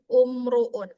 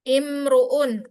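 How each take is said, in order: First: The word begins with a u vowel. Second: The word begins with an i vowel. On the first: The speaker calls it wrong. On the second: The speaker calls it right.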